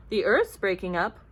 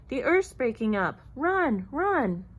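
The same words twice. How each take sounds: First: Loud, puzzled rising question; confused repeating. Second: Loud storybook cries of alarm; shouted warning. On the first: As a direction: echo the news in disbelief. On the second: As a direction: urge everyone to flee, voice rising. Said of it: "running and shouting". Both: A narrator's reading.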